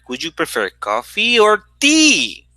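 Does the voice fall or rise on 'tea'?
rise. The voice does not fall at the end on tea. There is no coffee, or not enough of it. "it would be also possible that you do letter C"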